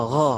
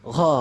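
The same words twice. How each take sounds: Both takes have the same delivery.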